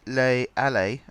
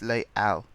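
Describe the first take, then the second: First: An extra vowel sound is pronounced at the end. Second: The word ends without any extra vowel sound. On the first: The speaker calls it wrong. "it's not Les Allées as I called it" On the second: The speaker calls it right. "you don't pronounce the es at the end"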